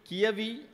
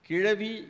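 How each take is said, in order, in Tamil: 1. நடுவில் உள்ள மெய்யெழுத்து y ஒலி. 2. நடுவில் உள்ள மெய்யெழுத்து zh ஒலி (மடிநா ஒலி).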